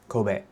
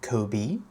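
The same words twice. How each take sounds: First: It is said with a Japanese pronunciation. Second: It is said like the English name. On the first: The speaker calls it right. "You should say Kobe" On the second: The speaker calls it wrong. "you shouldn't say Kobe, that's um, Kobe Bryant"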